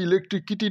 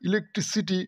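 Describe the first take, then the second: First: The second-to-last syllable is pronounced 'ki'. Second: The second-to-last syllable is pronounced 'si'. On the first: The speaker calls it wrong. "ইলেকট্রিক কিটি নয়" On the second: The speaker calls it right. "নয় ইলেকট্রিসিটি"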